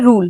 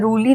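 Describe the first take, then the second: First: The word ends on the 'l' consonant. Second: The word ends with an added 'ee' vowel. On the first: The speaker calls it right. "हम इसे पढ़ेंगे रूल" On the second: The speaker calls it wrong. "रूली नहीं पढ़ेंगे"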